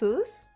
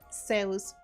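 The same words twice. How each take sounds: First: The name is pronounced the English way. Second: The name is pronounced the Spanish way. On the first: "and in English, it's" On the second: "in Spanish, it is"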